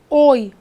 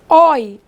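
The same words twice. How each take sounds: First: The vowel of the diphthong is closed. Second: The vowel of the diphthong is open.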